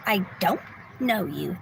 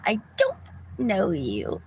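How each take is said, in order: First: A hint of the stranger's flat denial; lightly voiced quote, pitch dropping on know you; imitating the woman. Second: Hammed-up replay of the stranger's odd denial; imitating the woman. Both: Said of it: "That's how she said it, exactly like that".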